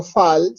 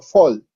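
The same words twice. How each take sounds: First: "fal" read as spelt, with an open a; literal Spanish reading. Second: "fol" with a rounded o, as English reads fall; English reading. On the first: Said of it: "no lo leo fal". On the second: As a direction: say "fol", the a turned into o. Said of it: "sino fol". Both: Shown as a demonstration.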